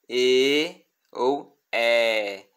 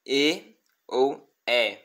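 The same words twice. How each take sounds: First: "E ou É" held very long and slow; drawn-out long "E ou É"; long e vowels. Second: "E ou É" shorter, slow; short Latin "E ou É"; short e vowels. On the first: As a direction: stretch each "E" and "É" out. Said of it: "a letra é longa". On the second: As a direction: keep "E" and "É" brief. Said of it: "ela curta". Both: Shown as a demonstration.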